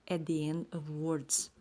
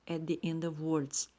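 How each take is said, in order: No difference in how they are said.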